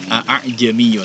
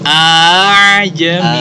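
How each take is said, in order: First: The second glottal stop is fully pronounced. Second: The second glottal stop is softened to half. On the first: "kalau kita baca hamzah yang aslinya kan a'ajamiyun" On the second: "jadi cara baca yang benar nah. itu a. Nah, jadi seperti uh, setengah uh, saja"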